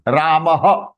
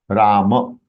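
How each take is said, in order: First: The word ends with a final breathy h. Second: The word ends without a final breathy h. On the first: This is the Sanskrit form of the name. "Ramah is the pronunciation in Sanskritam" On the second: This is the Hindi form of the name. "It is Ram. Ram. But it is in Hindi"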